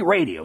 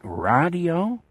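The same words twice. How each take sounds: First: The word is pronounced in the ordinary way. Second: The word is pronounced in an unusual way. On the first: This is how most people say it. "I say radio, same as any normal person" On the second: This is how another person says it. "That's the way he said it"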